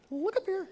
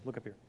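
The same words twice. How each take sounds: First: "Look up here" called out much higher; cheerful high call to the crowd. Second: Said in the usual way. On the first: Real, not acted. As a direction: lift the voice to grab the room's attention.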